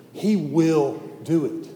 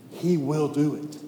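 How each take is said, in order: First: "He will do it." spoken slowly with every word weighted; slow emphatic promise. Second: Said in the usual way. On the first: Shown as a demonstration. To the congregation, "He will do it." slowly stressed. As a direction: land each word of "He will do it." like a vow.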